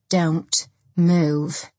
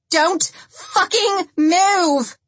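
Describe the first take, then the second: First: Deliberate, controlled command with a pause; steady warning. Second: High, loud, drawn-out scream; screamed command. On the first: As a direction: warn them while taking aim. Gun aimed, first warning before scream. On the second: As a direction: scream it slowly, each word stretched. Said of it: "Lindsay screamed". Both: A narrator's reading.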